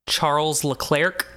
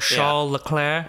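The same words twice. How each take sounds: First: The name is pronounced the American way. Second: The name is pronounced the French way.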